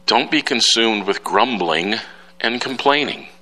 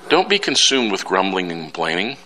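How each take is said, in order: First: Slowed reading of Paul's words; slow quoted scripture. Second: Said in the usual way. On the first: Retold or imitated. Preacher quoting Paul to his church, slowly. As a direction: lay the verse out slowly. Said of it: "Paul says".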